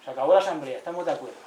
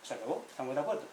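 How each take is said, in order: First: Louder, declaring the assembly over; firm announcement. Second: Soft, settled restatement; quiet echo. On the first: Retold or imitated. Elders announcing the end of the assembly, firm and loud. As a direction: announce it with authority. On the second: Shown as a demonstration. Speaker echoing the elders to the audience, soft and settled. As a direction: repeat it softly, letting it land.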